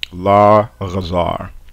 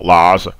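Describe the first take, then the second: First: A throaty consonant separates the two syllables. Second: The syllables merge without any throaty consonant. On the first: The speaker calls it right. "we bring back the guttural uh, quality of the phoneme" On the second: The speaker calls it wrong. "You've just completely merged the two syllables into a, you know, one giant class A vowel"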